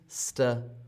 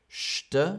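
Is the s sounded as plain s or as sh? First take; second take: plain s; sh. First: The s is pronounced as plain s. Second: The s is pronounced like sh. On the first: The speaker calls it wrong. "und nicht St" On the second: The speaker calls it right. "die Kombination wird zu Sch, St"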